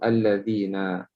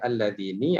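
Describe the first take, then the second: First: The final vowel is an 'a' sound. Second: The final vowel is not an 'a' sound. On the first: The speaker calls it right. "Dia tetap barisnya dengan baris atas" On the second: The speaker calls it wrong. "jangan baca alladzini"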